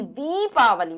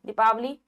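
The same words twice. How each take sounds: First: दीपावली with a long first vowel, 'deepaavali'. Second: दीपावली with a short first vowel, 'dipaavali'. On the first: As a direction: stretch the 'dee' in दीपावली. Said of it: "बड़ी ई आती है". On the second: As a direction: clip the 'di' in दीपावली. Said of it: "छोटी ई नहीं". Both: Shown as a demonstration.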